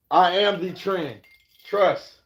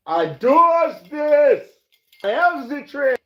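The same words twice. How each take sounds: First: Cocky brag. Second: High, loud and drawn-out show-off voice; hammed-up high diva brag; mock diva voice. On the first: Acted. Bragging about setting the trend. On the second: Bragging to viewers, in a high, loud put-on diva voice.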